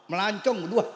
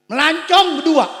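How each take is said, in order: First: Said in the usual way. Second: High, loud cry of the phrase; loud preached. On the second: Acted. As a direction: shout it out to the crowd.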